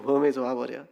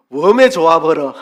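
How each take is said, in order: First: 전라도 사투리로 조용히 되풀이; Jeolla dialect. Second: Loud Jeolla dialect exclamation falling on 웜에; 전라도 사투리로 크게 외치듯. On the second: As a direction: shout 웜에 좋아버려 in Jeolla dialect. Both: Shown as a demonstration. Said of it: "뭐 이런 말 되겠죠".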